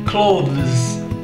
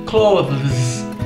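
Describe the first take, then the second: No difference in how they are said.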